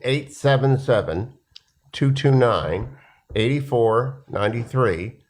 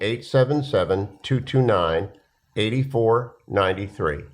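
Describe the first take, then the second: First: The number is said slowly and deliberately. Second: The number is said at normal, quicker pace.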